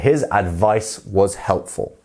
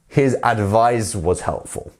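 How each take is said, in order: First: The second word ends in a hissing S sound. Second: The second word ends in a buzzing Z sound. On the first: The word is the noun. The speaker calls it right. "So correct form is" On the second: The word is the verb. The speaker calls it wrong.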